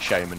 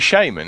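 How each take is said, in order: First: The word is said in a non-American way. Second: The word is said the American way. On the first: The speaker calls it wrong. "I call it shaman as well, but apparently it's completely incorrect" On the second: The speaker calls it right. "it should be shaman"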